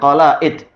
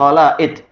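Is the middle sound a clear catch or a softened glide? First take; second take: clear catch; clear catch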